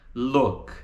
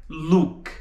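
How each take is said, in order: First: "look" with vowel between U and O; correct vowel. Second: "look" with a Brazilian U, like "luk"; wrong vowel. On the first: Teacher shows students "look", vowel between U and O. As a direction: relax the vowel of look toward O. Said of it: "Tá entre o U e o O". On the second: Teacher shows the mistake, "look" with Brazilian U. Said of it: "com som do U brasileiro". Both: Shown as a demonstration.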